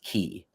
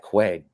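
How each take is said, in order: First: The word sounds like 'key'. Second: The word sounds like 'kway'. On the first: The speaker calls it right. "it's pronounced key" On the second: The speaker calls it wrong. "We all just yeah"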